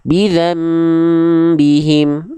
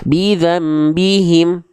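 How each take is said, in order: First: The m sound is held for two counts. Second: The m sound is short and rushed. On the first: The speaker calls it right. "Bidzam tahan dua harokat" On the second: The speaker calls it wrong. "jangan sampai cuma dibaca begini"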